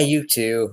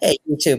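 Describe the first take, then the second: First: It sounds flat and tired. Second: It sounds warm and friendly.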